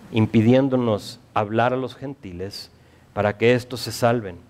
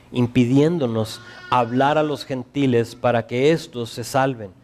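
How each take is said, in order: The two takes are said the same way.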